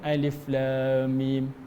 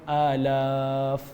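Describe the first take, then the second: First: Each letter is named separately. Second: The letters are run together as one word. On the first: The speaker calls it right. "tetapi dibaca dengan Alif Lam Mim" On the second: The speaker calls it wrong. "tak dibaca dengan alaf"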